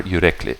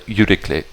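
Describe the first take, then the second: First: "Yürekli" stressed on the middle syllable, yu-REK-li; stress off the last syllable. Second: "Yürekli" stressed on the first syllable, YU-rik-li; stress off the last syllable. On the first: Offering the other option for the name, middle-syllable stress in "Yürekli". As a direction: hit REK in "Yürekli", light on kli. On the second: Checking the name aloud, first-syllable stress in "Yürekli". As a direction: hit YU in "Yürekli", light on kli. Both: Shown as a demonstration. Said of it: "not an accent on the kli".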